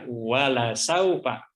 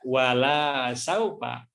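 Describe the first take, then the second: First: The vowel of 'la' is kept short. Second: The vowel of 'la' is drawn out long. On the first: The Lord will surely give. The speaker calls it right. "Yang betul adalah wala saufa" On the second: The Lord will not give. The speaker calls it wrong. "kalau dibaca wala saufa itu artinya menjadi terbalik"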